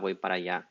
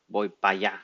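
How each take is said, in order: First: The middle word is the full two-syllable para. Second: The middle word is shortened to one syllable, pa.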